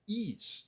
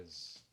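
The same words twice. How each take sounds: First: "is" as high "ees" with an S ending; mistaken pronunciation. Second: "is" as a drawn-out "ez"; corrected pronunciation. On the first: Teacher shows the mistake, "is" as "ees". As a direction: say "is" with a tense EE and hissed S. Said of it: "Não". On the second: Teacher corrects students, "is" as long "ez". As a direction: stretch "is" on an E vowel, ending in Z. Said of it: "a pronúncia é". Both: Shown as a demonstration.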